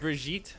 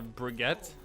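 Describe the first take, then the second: First: The name does not sound like baguette. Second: The name sounds French, rhyming with baguette. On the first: The speaker calls it right. "her name is Brigitte" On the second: The speaker calls it wrong. "mispronounce her and call her Brigitte, which is sounds like baguette"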